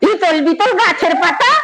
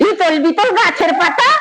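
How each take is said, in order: First: It is recited in an angry, quarrelling tone. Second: The same.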